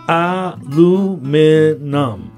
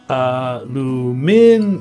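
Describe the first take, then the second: First: It has four syllables, American style. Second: It has five syllables, British style. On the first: "Four in the American pronunciation" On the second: "And five in the British pronunciation"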